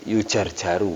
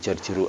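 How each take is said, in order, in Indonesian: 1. Vokal setelah j kedua adalah a. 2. Vokal setelah j kedua adalah i. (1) "Dibaca yujarjaru"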